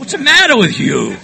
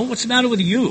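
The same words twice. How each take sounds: First: Loud, high mock scolding; mimicked scolding yell. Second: High-pitched, protesting comeback, short of a yell; defensive retort. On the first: Everybody berating him since childhood, loud mock scolding. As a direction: yell it like a fed-up parent. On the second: Retold or imitated. Accused man answering his scolders, defensive protest. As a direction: throw it back defensively, pitch raised.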